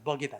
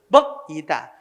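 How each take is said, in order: First: The k carries over into the next syllable. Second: The k is cut off before the next syllable. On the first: The speaker calls it right. "자연스럽게" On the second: The speaker calls it wrong. "이렇게 발음하면 없지"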